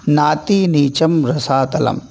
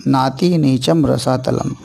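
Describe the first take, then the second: No difference in how they are said.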